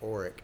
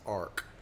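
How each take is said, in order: First: The name is said with two syllables. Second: The name is said with one syllable. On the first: This is the family's present-day pronunciation. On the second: This is how the Tennessee ancestors pronounced it.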